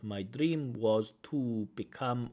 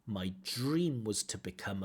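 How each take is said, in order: First: The word 'to' has a full, strong vowel. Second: The word 'to' has a reduced, weak vowel. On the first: The speaker calls it wrong. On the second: The speaker calls it right. "we would expect to"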